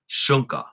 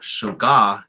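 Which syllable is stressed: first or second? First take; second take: first; second. First: The stress is on the first syllable. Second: The stress is not on the first syllable. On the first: The speaker calls it right. "this stress mark is on the first syllable, so it's shunka" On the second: The speaker calls it wrong. "it's not shuga"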